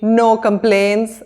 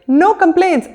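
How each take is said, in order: First: It is said in a grumbling, displeased tone. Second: It is said in a cheerful, contented tone. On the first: The speaker actually has many complaints. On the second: The speaker is genuinely content.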